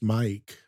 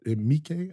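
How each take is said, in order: First: The name sounds like the English name Mike. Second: The name has a longer, drawn-out vowel sound. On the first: The speaker calls it wrong. "I always thought it was just Mike" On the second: The speaker calls it right. "I guess that's how you say it"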